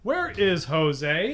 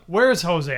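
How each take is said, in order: First: The words 'where is' are said in full. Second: The words 'where is' are contracted to 'where's'. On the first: This sounds robotic, like a textbook. The speaker calls it wrong. "But it's not going to say" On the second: This is how people naturally talk. The speaker calls it right. "you're going to say"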